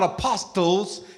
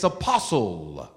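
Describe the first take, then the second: First: The T sound is pronounced in the middle. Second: The T is silent in the middle. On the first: The speaker calls it wrong. "It's not apostles" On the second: The speaker calls it right. "The T is silent"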